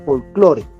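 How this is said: The word is pronounced the Spanish way. "sino su lectura en lengua castellana"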